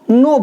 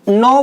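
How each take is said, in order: First: The vowel is pronounced as o. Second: The vowel is pronounced as au. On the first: This is the Khari Boli dialect pronunciation. "खड़ी बोली में नौ को नो बोलते हैं" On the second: This is the usual standard pronunciation. "जैसे हम नौ बोलते हैं"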